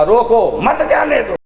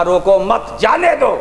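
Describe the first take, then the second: First: "रोको", break, then "मत जाने दो" as one phrase; pause after रोको. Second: "रोको मत" as one phrase, then "जाने दो"; group मत with रोको, then lift जाने दो; pause after मत. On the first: Retold or imitated. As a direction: move मत forward onto जाने दो. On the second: Shown as a demonstration. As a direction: break after मत, not after रोको. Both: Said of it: "यानी मत को आगे लगा दिया".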